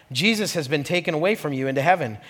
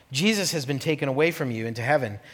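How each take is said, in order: No difference in how they are said.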